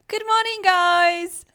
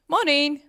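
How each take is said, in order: First: It is said in a bright teacher voice. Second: It is said in her normal voice.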